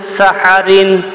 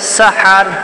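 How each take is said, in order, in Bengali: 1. শব্দটি একটি যোগ করা -in ধ্বনি দিয়ে শেষ হয়। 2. শব্দটি একটি খালি r ধ্বনি দিয়ে শেষ হয়। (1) "র দুই জের রিন" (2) "অফ করলে সাহার"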